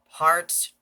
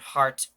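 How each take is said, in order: First: It is said with an American accent. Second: It is said with a British accent. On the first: "heart the American way" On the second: "heart the British way"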